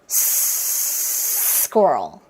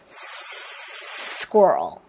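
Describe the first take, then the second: No difference in how they are said.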